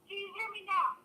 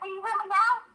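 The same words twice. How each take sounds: First: It is said quietly. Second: It is said loudly.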